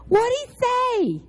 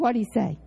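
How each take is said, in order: First: Nosy eager ask. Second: Said in the usual way. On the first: Retold or imitated. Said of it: "I'm nosy".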